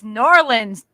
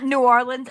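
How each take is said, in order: First: The name is run together into two syllables. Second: The name is said fully with three syllables. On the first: A local says it this way. The speaker calls it right. "It's Norlands, dude" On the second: An outsider says it this way. The speaker calls it wrong. "It's not New Orleans"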